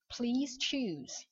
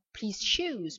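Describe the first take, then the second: First: "choose" starting with tch; hard tch. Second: "choose" said like shoes; wrong sh sound. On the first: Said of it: "on dira choose". (« choose » prononcé avec tch) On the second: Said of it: "on dira pas". (« choose » mal prononcé, comme shoes) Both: Shown as a demonstration.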